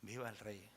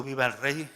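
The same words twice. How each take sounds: First: "Viva el rey" said softly, as if stunned; quiet horrified hush. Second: Louder cry. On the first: Preacher recalling the shock of the cry, soft stunned hush. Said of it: "recibía ese impacto". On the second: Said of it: "este grito". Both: Shown as a demonstration.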